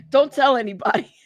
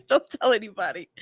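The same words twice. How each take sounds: First: Giggling through it; laughing. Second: Half-crying laugh. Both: Real, not acted. Laughing confession about drinking.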